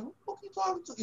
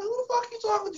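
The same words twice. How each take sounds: First: Fast, much higher and softer defiant snap; rookie's silent comeback to a scolding veteran; defiant inner retort. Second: Much higher, outraged mock retort; rookie's imagined outraged reply to the veteran; indignant inner voice. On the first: Retold or imitated. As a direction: fire back fast in your head. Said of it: "but I was like". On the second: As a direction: blurt it high with indignation. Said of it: "In my mind".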